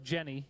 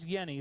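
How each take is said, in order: First: The name begins with a J sound. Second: The name begins with a Y sound. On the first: The speaker calls it wrong. "even though it looks like Jenny" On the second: The speaker calls it right. "that's how you pronounce that name, the J is silent, it's like a Y"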